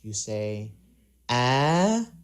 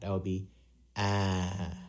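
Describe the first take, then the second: First: The pitch goes uphill to high. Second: The pitch goes downhill to low. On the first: "when you go uphill or high pitch or higher pitch" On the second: "when we lower pitch that, um, or downhill that"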